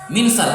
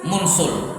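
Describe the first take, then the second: First: The first vowel is an i sound. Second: The first vowel is a u sound. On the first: This is the form the regular pattern predicts. "seharusnya apa? Min minsal" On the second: This is the irregular form actually used. "Tapi justru dibaca apa? Mun munsul"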